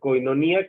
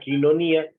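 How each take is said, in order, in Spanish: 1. La primera sílaba suena como koy. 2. La primera sílaba suena como kee. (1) "que así lo usamos, creo que todos la hemos usado así" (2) "que es como los griegos modernos le hablan"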